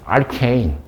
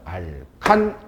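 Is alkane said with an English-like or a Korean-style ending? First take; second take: English-like; Korean-style. First: It ends in an English-like 'kane' sound. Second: It ends in a short 'kan' sound. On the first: It follows the English pronunciation. "외국 사람하고 얘기를 하다 보니까 알케인" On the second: It follows the local Korean reading. "나는 그냥 알칸"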